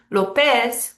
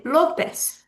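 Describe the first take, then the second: First: López as lo-PEZ, end punched; wrong stress. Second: López as LÓ-pez, drawn out; correct stress. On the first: Teacher showing what we don't say, López stressed on PEZ. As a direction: hit the final PEZ in López. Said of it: "but we don't say López". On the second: Teacher showing what we say, López stressed on LÓ. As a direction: lean slowly on the first syllable of López. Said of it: "we say López". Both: Shown as a demonstration.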